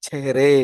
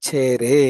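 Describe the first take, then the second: The two takes are said the same way.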